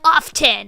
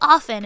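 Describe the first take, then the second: First: The T in the middle is pronounced. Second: The T in the middle is silent. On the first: The speaker calls it wrong. "one of like the sort of like up and comer young people was like" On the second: The speaker calls it right. "one of like the fancy old ladies was like"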